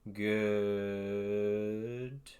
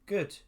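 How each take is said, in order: First: The word is stretched out for a long time. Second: The word is said briefly, at normal length.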